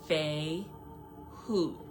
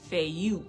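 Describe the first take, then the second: First: The second syllable begins with an h sound. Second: The second syllable begins with a y sound. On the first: "how you pronounce it is Fei Hu" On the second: "or as I like to say, Fei Yu, because of the U"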